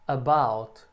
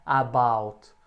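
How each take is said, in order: First: "about" with a tiny "uh", then a stressed BOUT; short first vowel. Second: "about" with a long, open A at the start; wrong full first vowel. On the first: Teacher corrects students, "about" with a very short unstressed A. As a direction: clip the A of "about" and lean on the second syllable. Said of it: "o ar é bem curtinho esse som". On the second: Teacher shows students the mistake, "about" with a full-length A. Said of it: "o ar é bem curtinho esse som, não é about". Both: Shown as a demonstration.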